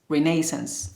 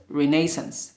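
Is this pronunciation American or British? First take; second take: British; British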